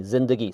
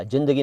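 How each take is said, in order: First: जिंदगी with a buzzing z; teacher gives जिंदगी with z, soft; z sound. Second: जिंदगी with a hard j, shown as wrong; teacher voices the mistaken जिंदगी; j sound. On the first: To learners, the correct z in जिंदगी. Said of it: "ज, जिंदगी वाला". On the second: To learners, the hard j in जिंदगी. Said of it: "जिंदगी नहीं". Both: Shown as a demonstration.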